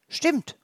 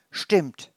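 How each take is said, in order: First: Much higher chorus of hedgehogs; hedgehogs calling in unison. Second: Said in the usual way. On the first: Acted. The other hedgehogs agree at once, much higher. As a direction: call it out together. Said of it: "rufen die anderen Igel einstimmig". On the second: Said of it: "repeats narrator".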